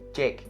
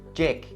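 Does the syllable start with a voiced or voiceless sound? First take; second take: voiced; voiced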